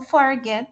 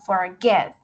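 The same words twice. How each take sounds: First: The stress is on the first syllable. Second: The stress is on the second syllable. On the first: The speaker calls it wrong. "yo no digo forget" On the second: The speaker calls it right. "la acentuación está al final, en la segunda sílaba"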